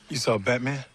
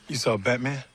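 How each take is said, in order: Both takes have the same delivery.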